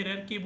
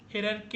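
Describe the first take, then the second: First: "hierarchy" ending in "kee"; second variant. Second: "Hierarchy" ending in "kay"; first variant. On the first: Teacher offering two ways to say the word, second variant. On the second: Teacher offering two ways to say the word, first variant. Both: Shown as a demonstration. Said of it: "Hierarchy या फिर hierarchy बोलते हैं हम".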